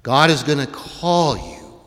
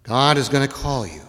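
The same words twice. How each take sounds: First: Slow line with "call" drawn out; stress on "call". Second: Said in the usual way. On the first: Shown as a demonstration. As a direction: stretch and lean on the word "call". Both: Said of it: "I wanna emphasize that word".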